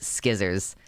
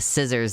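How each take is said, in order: First: The word begins with an sk sound. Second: The word begins with a plain s sound. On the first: "It is always skizzers" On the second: "the normal way"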